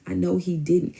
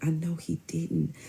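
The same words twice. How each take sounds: First: Said in the usual way. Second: Slow, soft disbelief; quiet disbelief. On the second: Real, not acted.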